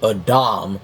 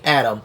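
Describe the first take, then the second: First: Said the Hebrew way, with a break. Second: Said the common English way. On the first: This follows the original Hebrew name. The speaker calls it right. "as the Hebrew pronunciation of man" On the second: This is how people usually say it. The speaker calls it wrong. "which y'all say Adam"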